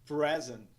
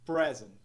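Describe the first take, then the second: No difference in how they are said.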